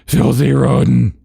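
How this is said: It is said in a put-on character voice. The speaker calls it right. "they were doing the Vera DeMilo voice"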